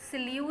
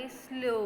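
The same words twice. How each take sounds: First: स्लू with an oo ending instead of o; wrong pronunciation. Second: स्लो with a long o, set apart; correct pronunciation. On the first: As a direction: show the mistake, स्लू rhyming with "few" or "too". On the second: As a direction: let स्लो fall on a rounded "o". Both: Shown as a demonstration. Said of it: "स्लू नहीं बोलना आपने".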